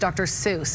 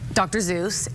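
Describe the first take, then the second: First: The name begins with an s sound. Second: The name begins with a z sound. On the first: This is how others insist it is said. "everyone's like, um, it's Doctor Seuss" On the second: This is how the speaker says it. "I had to say Doctor Zeus"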